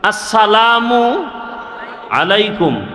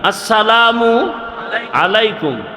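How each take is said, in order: No difference in how they are said.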